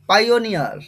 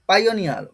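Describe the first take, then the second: First: The first syllable is said as "pie". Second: The same.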